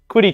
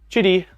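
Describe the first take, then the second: First: The name begins with a 'kw' sound. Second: The name begins with a 'ch' sound. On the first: "I've always pronounced it quitty" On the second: "tried to say chitty, like shitty"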